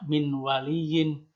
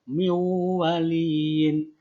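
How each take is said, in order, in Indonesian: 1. Bunyi n dibaca jelas sebelum w. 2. Bunyi n menyatu dengan w setelahnya. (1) "tidak min waliyin" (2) "Maka cara bacanya adalah miwaliyin"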